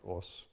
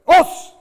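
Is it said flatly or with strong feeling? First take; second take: flatly; strong feeling. First: It is said flatly, without feeling. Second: It is said strongly, with feeling.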